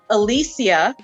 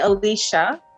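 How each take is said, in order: First: The name is said with a Spanish pronunciation. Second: The name is said with an American pronunciation. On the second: "Americans usually say Alicia"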